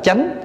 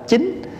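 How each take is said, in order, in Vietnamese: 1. Nguyên âm là âm 'ah' mở, theo giọng miền Nam. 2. Nguyên âm là âm 'ee' cao, theo giọng miền Bắc. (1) "thì chúng ta đọc là chánh" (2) "đọc theo người Bắc là chính"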